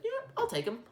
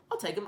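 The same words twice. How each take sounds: First: Squeaky high mock coach, much higher; a quick hammed-up coach voice, pitched way up; John Gruden impression. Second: Said in the usual way. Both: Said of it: "John Gruden would be like".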